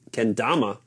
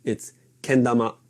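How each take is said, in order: First: Kendama said the English way, stress on the middle "da". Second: Kendama starting flat on "ken", then the pitch drops; kendama, flat start then falling; japanese pitch accent. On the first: Teaching viewers the English kendama versus the Japanese one. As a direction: kendama as an English speaker says it. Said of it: "it's not kendama". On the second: Teaching viewers the Japanese pitch accent on kendama. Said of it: "It starts flat and then drops down". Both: Shown as a demonstration.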